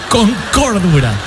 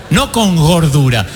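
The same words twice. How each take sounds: First: "cordura" enunciated as the correct word; careful correction to "cordura"; contrast on cordura. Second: "gordura" said slower and lower, as the wrong word; contrast on gordura. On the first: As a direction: land firmly on "cordura" as the word meant. Gives the word actually meant. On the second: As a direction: set "gordura" apart as the word not meant. Corrects a likely mishearing, for laughs. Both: Shown as a demonstration.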